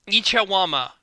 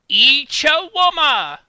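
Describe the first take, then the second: First: It is said in his normal voice. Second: It is said in an impression of Wicket.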